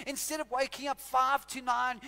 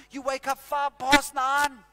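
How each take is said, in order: First: Said in the usual way. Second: "past" punched, loud and slowed; slow, loud emphasis on "past"; stress on past. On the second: Shown as a demonstration. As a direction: land hard on "five past nine". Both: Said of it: "But you know what happens over time?".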